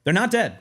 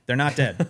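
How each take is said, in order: First: NOT dead, higher and louder, a quick laughing fix; emphatic correction. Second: Said in the usual way. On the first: Acted. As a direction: jump in to correct yourself, pitched up and louder. Correcting his own "no longer with us.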